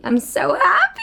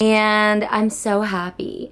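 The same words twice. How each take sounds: First: Giddy squeal. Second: Said in the usual way. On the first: Real, not acted. Gushing to viewers about finished room, giddy squeal. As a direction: burst out laughing with joy.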